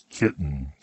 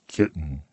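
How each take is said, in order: No difference in how they are said.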